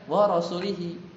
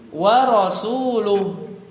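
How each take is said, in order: First: The vowel after rasul is an i sound. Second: The vowel after rasul is a u sound. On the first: God disowns the idolaters and also His messenger. The speaker calls it wrong. "nah kasroh" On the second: God and His messenger disown the idolaters. The speaker calls it right. "pakai dhammah"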